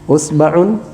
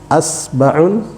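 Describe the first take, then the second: First: The word begins with the vowel u. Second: The word begins with the vowel a. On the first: "hamzanya dibaca dengan harakat dhammah" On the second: "hamzanya kita baca dengan harakat fathah"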